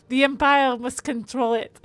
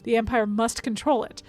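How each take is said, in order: First: Hammed-up French accent, louder; terrible French accent. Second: Said in the usual way. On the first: Streamer reading game dialogue to viewers in a terrible French accent. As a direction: read it in a badly faked French accent. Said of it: "my terrible French accent". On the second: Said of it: "probably I should have a French accent".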